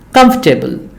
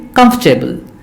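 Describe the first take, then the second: First: The word is said with three syllables. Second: The same.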